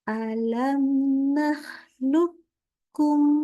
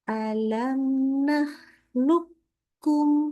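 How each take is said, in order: The two takes are said the same way.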